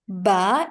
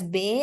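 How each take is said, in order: First: The vowel sounds like 'ah'. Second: The vowel sounds like 'eh'. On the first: This is how it is said in Arabic. The speaker calls it right. "Ba is the right pronunciation in Arabic" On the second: This is how it is said in Urdu or Hindi. The speaker calls it wrong. "because be is the pronunciation in our in our Urdu or Hindi language"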